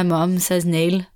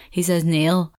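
First: Neil said mum's way, unlike dad's; mum's pronunciation. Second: Neil said the speaker's own way; dad's pronunciation. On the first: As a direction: give Neil mum's differing vowel. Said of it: "But then my mum says Neil". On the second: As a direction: say Neil as dad says it, like the speaker. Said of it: "my dad says it the same way I say it". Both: Shown as a demonstration.

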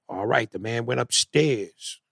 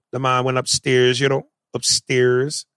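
First: Put-on slow, botched Jamaican accent; bad Jamaican accent. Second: Attempted Jamaican accent, as a model. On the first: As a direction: imitate an actor dragging through a failed Jamaican accent. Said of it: "He go". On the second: Shown as a demonstration. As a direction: demonstrate a proper Jamaican lilt. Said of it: "when they say".

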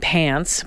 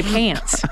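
First: Said in the usual way. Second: Pants with a long, drawn-out A, American style; drawled A. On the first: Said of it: "teases me about it". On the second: Shown as a demonstration. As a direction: drag the A in "Pants". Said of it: "I'll drag my A".

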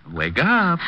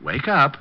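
First: Higher, more insistent wake-up call; calling louder. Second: Said in the usual way. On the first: Acted. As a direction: raise it to rouse a knocked-out man.

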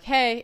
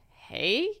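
First: Said in the usual way. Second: "Hey?" drawn out with a questioning rise. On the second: Retold or imitated. Woman retelling her ex's text reply, "Hey?" as a wary question. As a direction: imitate a puzzled reply on "Hey?".

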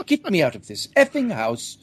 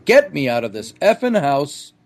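First: Mock-British yelp, higher pitched; British accent. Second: Mild mock yell of panic; half-hearted imitation of a friend yelling to escape; retold yell. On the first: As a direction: imitate a Brit begging to escape, in British accent. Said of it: "only he said it more British". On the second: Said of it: "he yells out".

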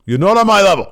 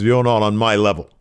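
First: Much higher and louder taunt; hammed-up shout of the wrestler's line; mock heel taunt. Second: Said in the usual way. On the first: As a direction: yell the putdown like a gloating heel. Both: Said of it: "and then he says".

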